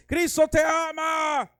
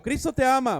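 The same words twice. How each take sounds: First: Higher, slow shouted "Cristo te ama". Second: Said in the usual way. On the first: Retold or imitated. (gritando "Cristo te ama" lento y más agudo) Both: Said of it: "más fuerte".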